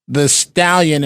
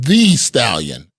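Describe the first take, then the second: First: 'The' is said with a short, reduced vowel. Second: 'The' is said with a long 'ee' vowel. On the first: The speaker calls it wrong. "So I said Megan the uh" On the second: The speaker calls it right. "and it's Megan the Stallion"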